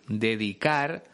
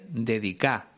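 First: The final r is pronounced clearly. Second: The final r is dropped, Andalusian style.

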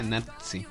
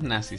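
First: The z is said like ts. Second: The z is said like a plain s. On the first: This is the English pronunciation. "En inglés la gente dice nazi. Así como pizza" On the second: This is the Spanish pronunciation. "Nosotros decimos nazi"

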